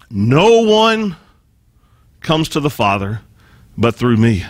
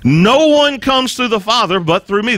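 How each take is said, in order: First: No one; stressed slowly, pausing before comes; slow emphatic quote. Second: Said in the usual way. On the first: Shown as a demonstration. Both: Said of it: "Now get this".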